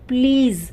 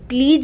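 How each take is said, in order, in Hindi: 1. शब्द 'z' ध्वनि से खत्म होता है। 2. शब्द 'j' ध्वनि से खत्म होता है। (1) "ज पे बिंदी आई तो ज बन गया" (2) "प्लीज नहीं"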